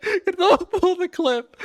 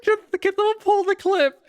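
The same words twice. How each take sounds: First: Slower, high laughing repeat. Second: High breathless laughing plea; barely holding it together; laughing hard. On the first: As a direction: drag it out through laughter. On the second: Laughing, asks for clip. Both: Real, not acted.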